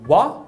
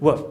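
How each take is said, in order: First: The vowel is a full, open vowel. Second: The vowel is reduced to a schwa. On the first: "Ao invés de wa" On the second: "A vogal também reduz... que é o schwa"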